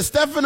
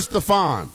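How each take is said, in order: First: Stefan as STEF-en, stressed first syllable; STEF-en pronunciation. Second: Stefan as steh-FAHN, stressed second syllable; steh-FAHN pronunciation. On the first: Host checking a caller's name, Stefan as STEF-en. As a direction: say Stefan with a short "eh", stress up front. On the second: Host offering caller the other name, Stefan as steh-FAHN. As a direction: say Stefan with a long "ah" at the end. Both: Shown as a demonstration. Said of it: "I always mispronounce your name".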